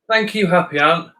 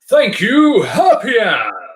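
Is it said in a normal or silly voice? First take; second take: normal; silly. First: It is said in his normal voice. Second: It is said in a silly put-on voice.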